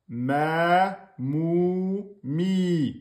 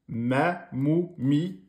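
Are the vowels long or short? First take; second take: long; short. First: Each vowel is held for two beats. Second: Each vowel is held for one short beat. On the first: "deux temps" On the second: "un temps"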